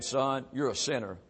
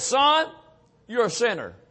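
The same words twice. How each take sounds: First: Quiet voice of God. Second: Voice of God. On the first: God quietly tells the sinner, soft and gentle. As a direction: voice of God, lower and softer, a gentle verdict. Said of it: "God turned the light on and said". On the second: God speaks to the sinner, loud and preaching. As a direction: voice of God, higher and louder, preaching force. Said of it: "That, that still small voice that spoke". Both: Retold or imitated.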